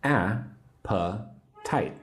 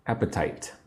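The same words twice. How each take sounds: First: "A-pa-tite" very slowly with a clear pause after each syllable; slow teacher's breakdown of "A-pa-tite"; three separate syllables. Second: Said in the usual way. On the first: Shown as a demonstration. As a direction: sound out "A-pa-tite" one beat at a time. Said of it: "Three syllables". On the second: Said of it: "Say the word appetite with me".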